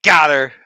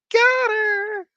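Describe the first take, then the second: First: Said in the usual way. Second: Much higher, squeaky repeat of "Got her". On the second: Shown as a demonstration.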